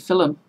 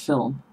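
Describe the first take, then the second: First: An extra vowel sound comes between L and M. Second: No vowel sound comes between L and M. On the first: This is how people say it where the speaker grew up. The speaker calls it wrong. "I also grew up saying film" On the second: This is the standard pronunciation. The speaker calls it right. "there is no U between the L and the M"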